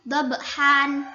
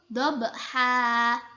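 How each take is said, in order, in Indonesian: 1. Kata ini diakhiri bunyi n. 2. Kata ini diakhiri vokal panjang. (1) "di Al-Quran tulisannya dobhan" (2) "membacanya itu dobha, dibaca panjang dua harokat"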